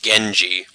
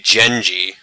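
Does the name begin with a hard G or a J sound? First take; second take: hard G; J sound. First: The name begins with a hard G sound. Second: The name begins with a J sound. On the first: It follows the name's actual reading. The speaker calls it right. "but instead it's" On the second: It follows a Western reading of the name. The speaker calls it wrong. "If we were to pronounce his name as Western names, uh, the G would actually be a J sound"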